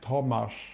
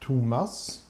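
First: The name is said the Polish way. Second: The name is said the Swedish way. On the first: "In Poland, it's like ridiculous. It's like" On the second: "Like in Sweden, it's like"

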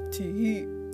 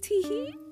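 First: It is said in a normal-pitched voice. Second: It is said in a high-pitched voice. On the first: The speaker calls it right. "unless you're going teehee" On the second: The speaker calls it wrong. "Never say teehee in a high-pitched voice"

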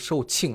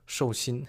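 First: The second syllable is pronounced qing. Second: The second syllable is pronounced xing. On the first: The speaker calls it right. "这个字读售罄啊" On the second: The speaker calls it wrong. "不是寿星，你这样出去说的话可能会引起笑话啊"

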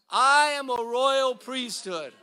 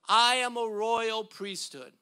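First: It is said forcefully, with strong conviction. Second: It is said in a plain, ordinary way. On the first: "let's do it like we mean it" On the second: "Say this with me"

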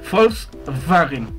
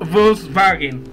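First: It is said with a German pronunciation. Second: It is said with a Spanish pronunciation.

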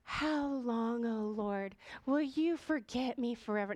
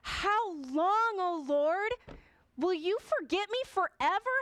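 First: It is said calmly, without anger. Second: It is said angrily.

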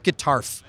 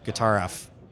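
First: The F is blended into one word. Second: The F is said as a separate letter. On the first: The speaker calls it wrong. "not Guitarf" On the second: The speaker calls it right. "There you go"

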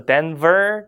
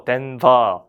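First: The word ends with an r sound. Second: The word ends without an r sound. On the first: The speaker calls it wrong. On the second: The speaker calls it right. "Just sounds like British English"

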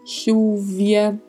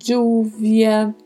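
First: The double L sounds like sh. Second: The double L sounds like dj. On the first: "ou até um leve som de X" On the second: "um som de D com J"

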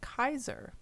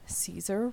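First: The word begins with a hard K sound. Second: The word begins with a soft S sound. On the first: The speaker calls it right. "pronounced with a hard C or K sound" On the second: The speaker calls it wrong. "we've all been saying Caesar wrong"

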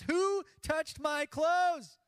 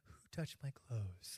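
First: The question is asked in a harsh, forceful way. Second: The question is asked in a soft, gentle way.

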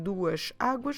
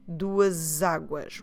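First: The two words are said separately, without linking. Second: The two words are joined with a z sound. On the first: "you can split the two words" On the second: "put them together, with a Z sound"

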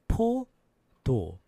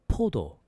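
First: The word is said slowly. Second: The word is said fast.

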